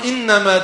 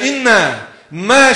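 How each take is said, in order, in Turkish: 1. Tek kelime olarak, ara verilmeden söylenir. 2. İki parçaya bölünür ve aralarında ara verilerek söylenir. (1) "Kur'an inneme dediği halde" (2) "bu kelimeyi iki parçaya bölüp de inne, me şeklinde okuduğunuz zaman"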